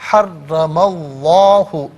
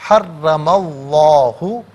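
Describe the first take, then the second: Both takes have the same delivery.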